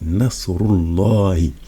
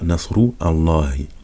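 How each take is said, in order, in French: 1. Les deux mots s'enchaînent directement sur le l. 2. Les deux mots sont prononcés séparément, avec une pause. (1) "on dit Nasrullahi" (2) "on dit pas Nasru Allahi"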